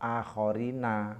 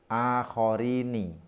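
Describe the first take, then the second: First: The final syllable ends with an 'a' vowel. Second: The final syllable ends with an 'i' vowel. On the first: It follows the usual grammatical rule. "nunnya dibaca fathah menjadi akhorina" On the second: It keeps the rhyme with the first half-line. "di sini dibaca kasroh"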